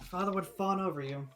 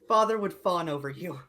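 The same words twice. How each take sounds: First: It is muttered quietly under the breath. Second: It is said clearly at normal volume.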